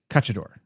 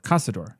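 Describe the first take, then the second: First: The middle consonant is a ch sound. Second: The middle consonant is an s sound. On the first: The speaker calls it wrong. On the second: The speaker calls it right.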